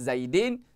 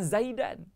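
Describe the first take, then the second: First: The ending has an i vowel before n. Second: The ending has an a vowel before n. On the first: "Tak boleh baca dengan Zaidin" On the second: "Tak boleh baca dengan Zaidan"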